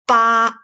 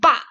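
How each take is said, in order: First: The syllable is said with a level tone. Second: The syllable is said with a falling tone. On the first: "read as the lower part 八" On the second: "we change to uh, down tone 爸"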